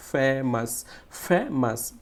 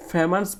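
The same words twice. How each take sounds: First: "famous" with a firm, held "ফে"; stress on first syllable. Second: Said in the usual way. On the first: Shown as a demonstration. Teacher repeating the rule for pupils, "famous" stressed on "ফে". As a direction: lean on "ফে" in "famous", then drop onto "মাস". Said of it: "একটু জোরে এবং loudly". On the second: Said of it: "এখানে কীভাবে উচ্চারণ করবো".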